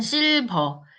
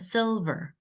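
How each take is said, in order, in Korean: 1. 한국어 억양으로 발음했어요. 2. 영어 억양으로 발음했어요. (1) "우리는 실버" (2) "영어로는 silver"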